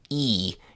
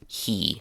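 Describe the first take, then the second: First: The word starts with no h sound. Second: The word starts with a clear h sound. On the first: "they say e" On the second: "instead of he"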